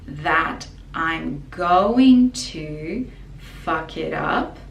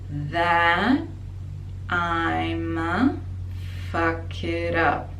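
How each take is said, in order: First: 'Going to' is said fully as separate words. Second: 'Going to' is squeezed into one short syllable. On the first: "technically, grammatically" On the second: "we make it short in speaking or in songs"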